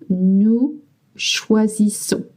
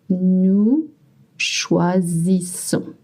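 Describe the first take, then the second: First: It is said at natural fast speed. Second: It is said slowly and carefully.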